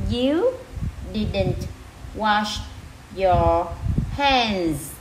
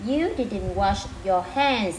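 First: Each word alone, a clear pause between. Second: Said in the usual way. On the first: Shown as a demonstration. Teacher rereads the sentence for learners, word by word. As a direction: read it out one separate word at a time. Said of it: "[name] sẽ đọc lại từng từ nha". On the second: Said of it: "đọc lại từng từ".

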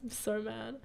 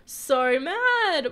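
First: Contained anger. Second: Loud, higher, wailing anger; mad. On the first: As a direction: keep the anger small and quiet. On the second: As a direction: let the anger burst out in a wail. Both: Real, not acted.

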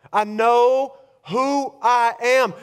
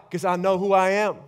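First: Slowed right down, each word weighted; slow emphatic declaration. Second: Said in the usual way. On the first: Acted. Preacher declaring his identity to the congregation, slow and emphatic. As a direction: land it slowly and firmly.

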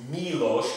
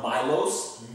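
First: Milos said as MEE-losh; correct pronunciation. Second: Milos misread as MY-lohs; wrong pronunciation. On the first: Vlogger explaining the I is an E sound, correct MEE-losh. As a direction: make the i of Milos an ee, ending in sh. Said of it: "'cause the I is an E sound". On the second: Vlogger warning viewers it's not said so, mispronounced MY-lohs. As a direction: say Milos with an English long i and final s. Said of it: "It's not Milos". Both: Shown as a demonstration.

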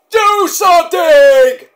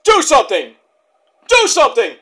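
First: Much higher, much louder, drawn-out slow scream; desperate scream. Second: Loud, higher repeated plea; movie line shout. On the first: Vlogger quoting a movie, peak desperate scream. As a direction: stretch the last plea into a full scream. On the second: Vlogger quoting a movie, mock loud plea. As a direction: quote the movie line with a yell. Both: Retold or imitated. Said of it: "where that movie comes from".

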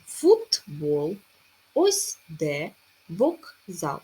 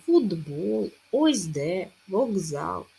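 First: Футбол with a clear t, slow; вокзал with a clear k, as written; spelled way. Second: Футбол as fudbol, slow and loud; вокзал as vogzal, with a voiced g; said as heard, voiced. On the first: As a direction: slowly read each word exactly as spelled. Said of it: "Але пишемо". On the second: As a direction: slowly voice the consonants as heard. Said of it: "Вимовляємо". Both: Shown as a demonstration.

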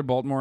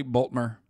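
First: Said in the usual way. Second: Baltimore in two syllables, 'Bolt-mer'; local pronunciation. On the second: Shown as a demonstration. Streamer insisting on how locals say it, Baltimore as 'Bolt-mer'. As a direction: swallow the middle and end of Baltimore: 'Bolt-mer'. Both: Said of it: "It is how you say it".

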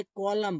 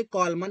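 First: कॉलम said ending on m, no n; कॉलम like colum, final n dropped; silent n. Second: कॉलमन with the final n wrongly sounded; कॉलमन as the mistaken spelling pronunciation; wrong extra n. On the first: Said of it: "आप इसे कॉलम बोलते हैं". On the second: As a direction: say कॉलमन with a voiced n at the end. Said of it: "नहीं बोलते हैं". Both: Shown as a demonstration.

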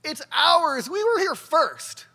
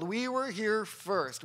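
First: Loud, high mock yell of protest; retold yell. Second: Slow, measured retelling of a handed-down story; recited narrative. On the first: Speaker retells a Ukrainian kid's outburst in class, mock yell. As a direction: imitate a kid yelling out a claim. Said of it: "jumps up and yells". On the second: Retold or imitated. Speaker quotes the story kids were told, slow recital. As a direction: recite it slowly, without yelling. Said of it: "That's the story they were told".

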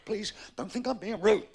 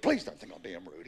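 First: High, loud exasperated plea; raised-voice pleading. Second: Low-pitched, restrained plea; lowered-voice pleading. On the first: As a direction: plead with a pupil, voice pushed up and loud. Exasperated golf pro pleads. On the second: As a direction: repeat the plea with the voice dropped right down. Same plea, brought down. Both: Acted.

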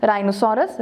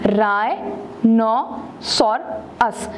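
First: Said in the usual way. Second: Rhinoceros split into four slow syllables. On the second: Shown as a demonstration. Teacher showing a four syllable word, rhinoceros said syllable by syllable. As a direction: say rhinoceros very slowly with gaps between syllables. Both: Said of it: "four syllable word है".

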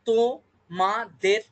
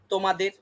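First: তোমাদের stretched slowly, তো-মা-দের apart; drawn-out syllables. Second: Said in the usual way. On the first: Shown as a demonstration. Teacher to class, sounding out তোমাদের very slowly. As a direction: draw out তোমাদের in three slow beats. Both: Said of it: "এরকম আসছে তো".

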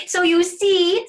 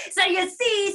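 First: High, loud, drawn-out crowing; triumphant rabbit. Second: High, loud bear crowing; triumphant bear. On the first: Rabbit having won the hearing test, triumphant. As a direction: crow it slowly as a proud rabbit. Rabbit crows over bear. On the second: Bear having outsmelled the rabbit, triumphant. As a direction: crow it back as a gloating bear. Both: Acted.

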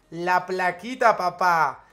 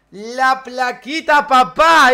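First: Said in the usual way. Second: Drawn out, rising to a loud proud shout; proud slow boast. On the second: Acted. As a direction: show off the plaque, loud and slow. Shows off his award plaque. (presumiendo la placa, lento y fuerte)

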